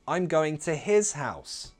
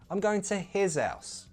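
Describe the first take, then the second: First: Both H sounds are pronounced. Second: Only the first H sound is pronounced. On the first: "there's the option of keeping both H's" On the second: "keep the first H, drop the second one"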